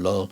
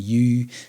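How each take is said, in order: First: The name starts with an L sound. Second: The name starts with a Y sound. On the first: This is how the speaker usually says the name. "I usually call him Ramon Lull" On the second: This is how some other people say the name. "some people pronounce his name Yu"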